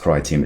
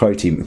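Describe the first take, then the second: First: The first syllable rhymes with 'my'. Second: The first syllable rhymes with 'go'. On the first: "People call it the Cry Team bundle" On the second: "I call it the Crow Team"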